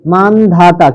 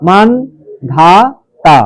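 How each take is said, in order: First: Said in the usual way. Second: মানধাতা very slow as man, dha, ta; long pauses between the three parts of মানধাতা; syllable by syllable. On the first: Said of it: "কি আসবে বলো". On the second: Shown as a demonstration. Teacher breaks the word down for pupils, slow and segmented. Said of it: "মান একটা হসন্ত দেবে".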